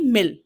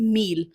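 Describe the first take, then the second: First: The vowel is a short i sound. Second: The vowel is a long ee sound. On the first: The speaker calls it wrong. "ना कि मिल" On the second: The speaker calls it right. "हम pronounce करते हैं मील"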